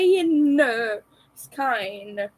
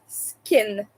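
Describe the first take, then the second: First: The vowel is long, as in sky. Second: The vowel is short, as in skin. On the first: "Like sky, skine" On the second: "pronounce it skin, like human skin"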